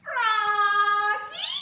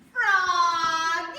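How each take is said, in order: First: Long loud high call; mother calling Froggy loudly and excitedly. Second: Long loud high call across the house; father calling his son loudly. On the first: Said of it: "soft voice or a loud voice? Loud". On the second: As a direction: call Froggy from far away, loud and drawn out. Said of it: "called his father". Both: Acted.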